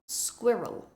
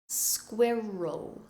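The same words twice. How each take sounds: First: The word is said quickly. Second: The word is said slowly and carefully. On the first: "Now try and say it faster" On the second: "So listen very carefully"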